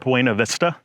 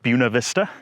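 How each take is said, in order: First: The name is said in a non-local way. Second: The name is said the local way. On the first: This is how an outsider would say it. "I would pronounce it Buena Vista" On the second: This is how people who live there say it. "the locals call it Buena Vista"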